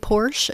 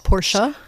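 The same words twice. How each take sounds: First: The word ends without a final vowel. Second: The word ends with a pronounced final vowel. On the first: The speaker calls it wrong. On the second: The speaker calls it right.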